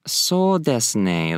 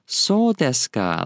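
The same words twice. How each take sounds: First: "So desu ne" slow, with a drawn-out "ne"; casual agreement. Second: "So desu ka" slow, with a drawn-out "So"; literal question. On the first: Teacher showing how to agree, casual agreement. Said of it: "kind of like you're agreeing". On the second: Teacher showing learners a real query, questioning. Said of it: "a literal question". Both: Shown as a demonstration.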